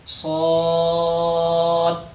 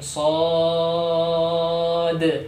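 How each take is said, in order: First: The final consonant ends flat without a bounce. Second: The final consonant ends with an echoing bounce. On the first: The speaker calls it wrong. "Jangan dibaca shad. Ya, itu salah" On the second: The speaker calls it right.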